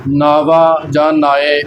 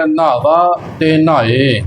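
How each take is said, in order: First: "ਨਾਵਾ" and "ਨਾਏ" with a soft, loose first syllable; soft pronunciation. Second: Slow "ਨਾਵਾ", "ਨਾਏ" with a firmly pressed first syllable; tight pronunciation. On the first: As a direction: say "ਨਾਵਾ", "ਨਾਏ" laxly, without pressing the n. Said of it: "ਪੋਲਾ ਉਚਾਰਨ ਨਹੀਂ ਕਰਨਾ". ("ਨਾਵਾ", "ਨਾਏ" ਪੋਲਾ ਉਚਾਰਨ) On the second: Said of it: "ਕੱਸ ਕੇ ਹੀ ਇਹਨਾਂ ਦਾ ਉਚਾਰਨ". ("ਨਾਵਾ", "ਨਾਏ" ਕੱਸ ਕੇ ਉਚਾਰਨ) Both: Shown as a demonstration.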